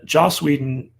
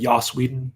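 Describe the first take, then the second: First: The name is said with an English pronunciation. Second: The name is said with a Nordic pronunciation.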